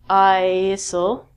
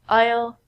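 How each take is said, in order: First: An S sound is pronounced in the word. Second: No S sound is pronounced in the word. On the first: The speaker calls it wrong. "We don't say isle and isle" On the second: The speaker calls it right. "We say aisle"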